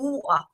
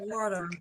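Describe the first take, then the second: First: The word is said in a London accent. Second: The word is said in an American accent. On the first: "they all talk like this" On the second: "I love the American accent"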